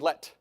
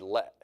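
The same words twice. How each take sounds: First: The final T is clearly released as a stop. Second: The vowel is cut off with no released T. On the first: The speaker calls it wrong. "But we don't say let" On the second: The speaker calls it right. "We say let, like a Utah person says mountain"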